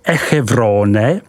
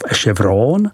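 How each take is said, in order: First: The name is read as it is spelled. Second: The name is said with French sounds.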